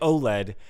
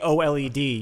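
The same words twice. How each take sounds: First: It is said as a single word. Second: It is spelled out letter by letter. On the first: Listeners will not understand what is meant. "which nobody's gonna know what you mean" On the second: It becomes as long as four words. "you might as well have just made it four words"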